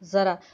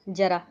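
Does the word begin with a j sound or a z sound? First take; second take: z; j. First: The word begins with a z sound. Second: The word begins with a plain j sound. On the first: It means old age. "अगर नुक्ता लग गई तो उसको बोलेंगे ज़रा" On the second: It means a little. "Hindi में ... हम उसको बोलते हैं थोड़ा"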